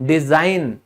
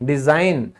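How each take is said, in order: Both takes have the same delivery.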